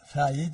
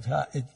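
First: The middle consonant is a 'y' glide. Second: The middle consonant is a glottal stop.

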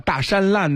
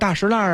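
First: The middle syllable sounds like shan. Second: The middle syllable sounds like shi. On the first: This is not the authentic local way of saying the name. The speaker calls it wrong. "都不是地道的念法" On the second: This is the local old-Beijing way of saying the name. The speaker calls it right. "都以老北京大石烂的这个音来报名了"

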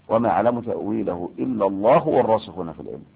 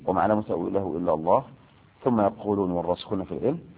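First: It runs on without a pause after 'illa Allah'. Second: There is a pause after 'illa Allah'. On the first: Those firm in knowledge also know its interpretation. "ومذهب بالوصل" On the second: Only God knows its interpretation. "مذهب بالوقف"

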